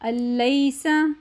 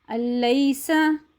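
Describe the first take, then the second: No difference in how they are said.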